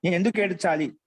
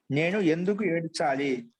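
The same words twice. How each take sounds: First: Said in the usual way. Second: Slowly, word by word for students writing; slow dictation. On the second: Shown as a demonstration. Teacher repeating a Sanskrit lesson's translation for students, slow dictation. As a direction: draw the sentence out for note-taking.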